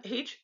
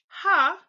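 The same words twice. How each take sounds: First: H said as 'aych', the English letter name. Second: Ha said as an open, emphatic 'hah', higher and louder; German letter H. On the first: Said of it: "not H". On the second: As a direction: punch out ha, the German name of H. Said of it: "I'm sorry, not H, ha". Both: Shown as a demonstration.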